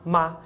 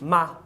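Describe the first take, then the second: The two takes are said the same way.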